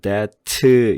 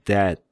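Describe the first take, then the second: First: It ends with an extra vowel after the t. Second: It ends in a short, clipped t. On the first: The speaker calls it wrong. "이렇게 발음하지 말고" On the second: The speaker calls it right. "그냥 아주 간단하게 장전만 했다가 빵 쏘듯이"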